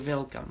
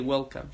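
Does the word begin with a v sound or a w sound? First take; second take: v sound; w sound. First: The word begins with a v sound. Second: The word begins with a w sound. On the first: The speaker calls it wrong. "like V" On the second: The speaker calls it right. "She don't say welcome"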